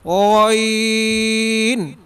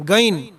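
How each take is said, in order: First: غین drawn out long and full; correct reading. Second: غین said short and clipped the wrong way; wrong reading. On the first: Teacher showing the right way, a long غین. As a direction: hold غین long from the throat. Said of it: "اس طرح ہی ادا کیا جائے". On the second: Teacher mimicking the mistake students make, a short غین. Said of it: "یہ بالکل غلط ہے". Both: Shown as a demonstration.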